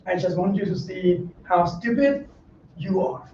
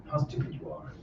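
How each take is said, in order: First: Said in the usual way. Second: Hushed, breathy whisper of the repeat. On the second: Shown as a demonstration. Monk whispers the jab again to his listeners. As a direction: drop to a whisper to let it sink in.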